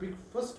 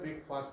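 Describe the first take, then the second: First: The second syllable has a short, weak vowel. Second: The second syllable sounds like the word fast. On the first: The speaker calls it right. "पर ब्रेकफास्ट बोला जाता है" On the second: The speaker calls it wrong. "ब्रेकफास्ट नहीं बोला जाता"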